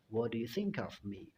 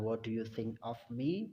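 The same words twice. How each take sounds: First: The k of think links into of. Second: Think and of are said as separate words. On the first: The speaker calls it right. "huruf K yang ada di kata think itu digabungkan dengan of" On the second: The speaker calls it wrong.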